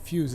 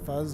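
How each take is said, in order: First: The middle consonant is an s sound. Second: The middle consonant is a z sound. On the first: The speaker calls it wrong. "It's not really how you're supposed to pronounce that name" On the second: The speaker calls it right. "Fuse would be an S, not a Z"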